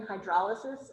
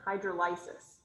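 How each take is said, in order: First: Hydrolysis as "hy-DROL-uh-sis"; standard hydrolysis. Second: Hydrolysis as "hydro-LYE-sis"; altered hydrolysis. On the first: Teacher asking students to compare two readings, hydrolysis as "hy-DROL-uh-sis". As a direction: put the stress on "DROL" in hydrolysis. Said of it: "What's the difference between". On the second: Teacher asking students to compare two readings, hydrolysis as "hydro-LYE-sis". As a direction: say hydrolysis with a long "LYE" in the third syllable. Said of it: "it's not hydrolysis". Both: Shown as a demonstration.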